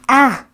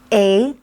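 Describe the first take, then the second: First: The vowel is said as a short sound. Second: The vowel is said as a long sound. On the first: "The short vowel sounds are" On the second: "the long vowel sounds are"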